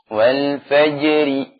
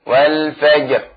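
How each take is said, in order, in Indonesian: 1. Kata ini berakhir pada vokal pendek i. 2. Kata ini berakhir pada konsonan r. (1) "Kalau diwasalkan" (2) "Ketika diwaqafkan"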